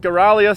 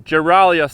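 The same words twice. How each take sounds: First: It begins with a hard G sound. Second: It begins with a soft G sound.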